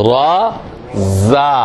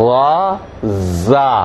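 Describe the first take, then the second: Both takes have the same delivery.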